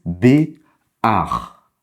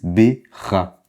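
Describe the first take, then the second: First: "B, ar" with the a sound before the r; vowel first, then the r: "ar", not "ra"; correct reading. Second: "B, ra" with the r sound before the a; syllable read as "ra", consonant first, as a beginner might; wrong reading. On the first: Teacher correcting students: "ar", a then r. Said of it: "D'abord le A, ensuite le ret". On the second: Teacher showing students the wrong reading: "ra", r before a. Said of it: "Certains pourraient tenter de lire". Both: Shown as a demonstration.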